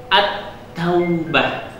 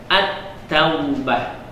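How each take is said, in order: Both takes have the same delivery.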